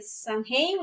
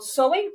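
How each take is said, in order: First: It is pronounced as spelled, like 'sam-hain'. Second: It is pronounced without an m, like 'sow-en'.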